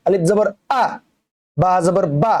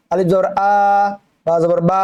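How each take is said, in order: First: আ and বা cut short, with no stretch; short vowel. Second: আ and বা held long; wrong demo with drawn-out endings on আ and বা; wrongly stretched vowel. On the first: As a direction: read আলিফ জবর আ, বা জবর বা with quick short endings. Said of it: "এভাবে পড়া লাগবে". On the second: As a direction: drag out the final আ and বা as a mistake. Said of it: "এভাবে না, কোনো টান হবে না". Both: Shown as a demonstration.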